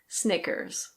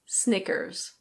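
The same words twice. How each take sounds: First: The R at the end is pronounced. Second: The same.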